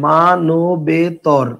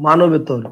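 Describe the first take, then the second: First: মানবেতর stretched very slowly, each syllable held apart. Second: Said in the usual way. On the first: Shown as a demonstration. Teacher asking students to notice the word, slow syllable-by-syllable dictation. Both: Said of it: "তাহলে খেয়াল করেন".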